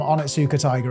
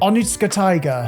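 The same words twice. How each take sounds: First: The name is said in a casual, everyday way. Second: The name is said in a careful, deliberate way. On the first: "I know I'm pronouncing the name wrong" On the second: "when I try and pronounce it correctly, it sounds even worse"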